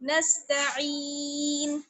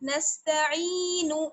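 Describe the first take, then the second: First: The word ends on a bare n sound. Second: The word ends with a short u vowel. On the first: The reciter stops at the end of the verse. "अगर ठहर जाएंगे हम ... तो फिर नून को साकिन कर देंगे" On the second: The reciter carries on without stopping. "नून पेश नू"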